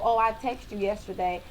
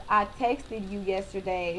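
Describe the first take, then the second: First: Said in the usual way. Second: "texted" said with a full second syllable; spelled-out ending on "texted". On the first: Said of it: "when I tell people". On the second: Shown as a demonstration. Questioning the past tense, "texted" in two syllables. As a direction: sound out the "-ed" in "texted". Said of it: "It just don't sound right to me".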